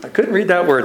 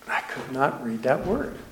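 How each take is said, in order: First: Said in the usual way. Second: Much softer, under the breath; hushed confession. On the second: Real, not acted. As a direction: admit it quietly, as an aside. Confesses aside after stalling on scripture.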